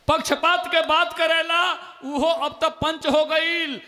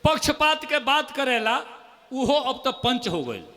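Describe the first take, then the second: First: Louder repeated poem line. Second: Poem recital. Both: Acted. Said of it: "दो मुक्तक और सुन लीजिए".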